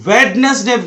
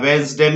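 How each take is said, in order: First: The d sound is pronounced in the word. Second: The d sound is left out of the word. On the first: The speaker calls it wrong. "कभी नहीं बोलना चाहिए" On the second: The speaker calls it right. "यहां पर डी silent है"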